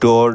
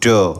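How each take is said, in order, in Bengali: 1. শেষের r ধ্বনিটি উচ্চারিত হয়। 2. শেষের r ধ্বনিটি নীরব থাকে। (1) "না বলে" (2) "বলবো"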